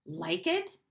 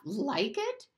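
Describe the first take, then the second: First: Said in the usual way. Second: "Like it?" repeated higher and a bit louder. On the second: Acted. Bruno repeats Maria's question more insistently, higher. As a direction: push the echo up in disbelief. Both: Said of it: "he repeated, but louder this time".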